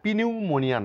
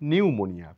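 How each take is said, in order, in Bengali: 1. শুরুতে 'p' ধ্বনি উচ্চারিত হয়। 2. শুরুতে কোনো 'p' ধ্বনি উচ্চারিত হয় না। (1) "এটা পিনিউমোনিয়া নয়" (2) "পি এর কোনো এখানে সাউন্ড নেই"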